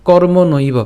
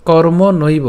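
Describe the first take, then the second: No difference in how they are said.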